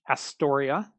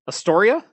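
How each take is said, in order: First: The stress is on the first syllable. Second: The stress is on the second syllable. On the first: The speaker calls it wrong. "You did it again" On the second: The speaker calls it right. "there you go"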